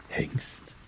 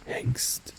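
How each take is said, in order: Both takes have the same delivery.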